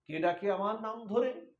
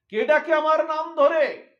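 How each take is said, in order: First: Said in the usual way. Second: High, loud wail of alarm; anguished cry. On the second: Acted. Radha crying out on hearing her name called. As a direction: cry it out as if the heart is shaking. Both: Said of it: "এমন করে আর্তনাদ করে".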